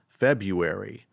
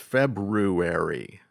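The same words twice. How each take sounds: First: The first r is dropped from the word. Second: The first r is clearly sounded in the word. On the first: The speaker calls it wrong. "I thought the word ... was pronounced February" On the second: The speaker calls it right. "but it's February"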